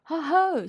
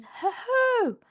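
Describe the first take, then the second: First: A sudden booming ho, ho; playful loud shout to make them jump; loud, sudden call. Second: Much higher and louder, trying to sound fierce; small animal puffing up to sound fierce; high, loud attempted growl. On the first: Acted. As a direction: burst out loud and high to startle them. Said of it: "loudly and suddenly". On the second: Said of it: "as fiercely as he could".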